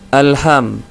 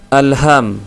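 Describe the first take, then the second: Both takes have the same delivery.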